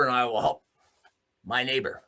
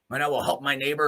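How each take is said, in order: First: "and I will help" then a pause before "my neighbor", each word pressed; emphatic repeat. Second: Said in the usual way. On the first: Real, not acted. Vowing loyalty to his neighbors, emphatic pauses.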